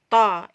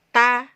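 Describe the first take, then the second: First: The sound is thick, made at the back. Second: The sound is thin, made at the front. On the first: The speaker calls it wrong. "bukan ta, ta. Ini keluar di dalam" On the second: The speaker calls it right. "Harus kita keluarkan keluar"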